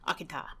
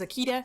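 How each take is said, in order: First: It is pronounced the Japanese way. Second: It is pronounced the common English way. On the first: "I pronounce it the Japanese way" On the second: "versus Akita"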